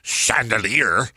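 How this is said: It is said with an American pronunciation. This is how Americans say it. The speaker calls it wrong. "Stupid American"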